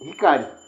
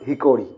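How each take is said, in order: First: The middle vowel sounds like 'ah'. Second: The middle vowel sounds like 'oh'. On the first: The speaker calls it right. "This is hikari" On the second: The speaker calls it wrong. "not hikori"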